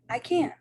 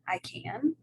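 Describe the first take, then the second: First: It is said with strong exclamatory emphasis. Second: It is said with a questioning rise. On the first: The speaker exclaims about an ability. "and an exclamation" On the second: The speaker asks about an ability. "a question"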